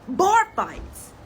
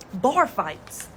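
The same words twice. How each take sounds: First: Bar fights said much higher and louder; emphatic repeat. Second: Said in the usual way. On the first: Retold or imitated. Grandma stressing the warning, higher louder Bar fights. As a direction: punch Bar fights the second time.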